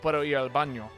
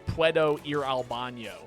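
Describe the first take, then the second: First: It is said with a native Spanish accent. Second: It is said with an American English twang. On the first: The speaker calls it right. "it's different than like" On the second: The speaker calls it wrong. "but but get that twang in there"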